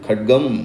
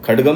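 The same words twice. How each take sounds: First: No vowel is heard after the d sound. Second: A vowel is heard after the d sound. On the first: The speaker calls it right. "डा को बाहर निकलने नहीं देना है, उसका स्वर नहीं आना चाहिए" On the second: The speaker calls it wrong. "खड्गम नहीं बोलना है"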